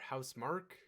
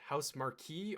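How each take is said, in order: First: The name ends with one syllable, 'mark'. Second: The name ends with two syllables, 'mar-kee'. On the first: The speaker calls it right. "I've heard it pronounced as Housemarque" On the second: The speaker calls it wrong. "I always call it Marquee"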